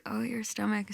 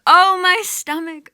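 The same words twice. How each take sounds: First: Soft echo. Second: Wailing cry. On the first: Creatures quietly echoing the goddess's pain, soft murmured echo. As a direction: murmur it back gently. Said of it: "And they say". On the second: Goddess in the underworld wailing for her husband, loud keening wail. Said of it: "she's crying out". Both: Acted.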